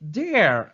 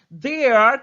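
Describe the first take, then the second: First: The words merge into one short syllable. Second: Two separate words are said in full.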